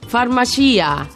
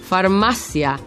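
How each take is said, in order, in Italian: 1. La parola si pronuncia all'italiana. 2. La parola si pronuncia alla spagnola. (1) "non farmacia" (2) "farmacia e non farmacia"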